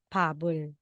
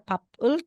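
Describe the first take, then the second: First: The middle consonant is a voiced b. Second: The middle consonant is a voiceless p. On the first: The speaker calls it right. "kundi pabol" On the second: The speaker calls it wrong. "Di na siya papul"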